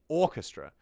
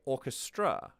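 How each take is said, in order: First: "orchestra" stressed on the first syllable, OR-kes-tra; natural syllable stress. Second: "orchestra" stressed on the last syllable, or-kes-TRA; misplaced syllable stress. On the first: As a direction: hit the start of "orchestra", let the rest fall. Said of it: "No, we say orchestra". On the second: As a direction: push the weight onto the end of "orchestra". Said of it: "When we speak, do we say". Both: Shown as a demonstration.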